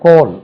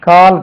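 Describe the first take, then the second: First: The vowel sounds like a rounded 'oh'. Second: The vowel sounds like a long 'ah'. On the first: The speaker calls it right. "இது கோல் என்று உச்சரிக்கணும்" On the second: The speaker calls it wrong. "கால் கிடையாது"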